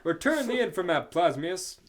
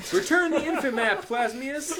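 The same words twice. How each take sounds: First: Loud heroic demand; shouting. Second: Laughing shout. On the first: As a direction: call it out to the villain. Hero yelling at villain, reread. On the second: Hero yelling at villain. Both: Acted.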